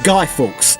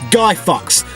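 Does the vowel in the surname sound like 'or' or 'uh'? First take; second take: or; uh. First: The surname has a long 'or' vowel. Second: The surname has a short 'uh' vowel. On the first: The speaker calls it right. "which is pronounced Guy Fawkes" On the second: The speaker calls it wrong. "not Guy Fucks, like how that uneducated moron ... pronounced it"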